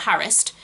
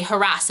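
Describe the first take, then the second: First: "harassed" stressed on the first syllable, HARRIS-t; RP pronunciation. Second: "harass" stressed on the second syllable, huh-RASS; non-RP pronunciation. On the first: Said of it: "and not harassed". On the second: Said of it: "you say harass". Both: Shown as a demonstration.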